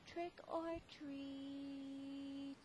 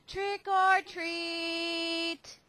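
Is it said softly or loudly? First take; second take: softly; loudly. First: It is said very softly. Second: It is said a little louder.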